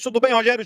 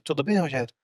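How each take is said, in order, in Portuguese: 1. Fala-se alto, com muita energia. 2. Fala-se baixo, com pouca energia. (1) "Olha como muda a entonação" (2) "fala desse jeito?"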